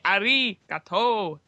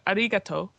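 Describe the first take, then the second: First: One syllable is stressed more than others. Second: All syllables carry equal stress. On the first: The speaker calls it wrong. "you don't say arigato like that, which is what an English person would do" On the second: The speaker calls it right. "all of the syllables have got equal stress"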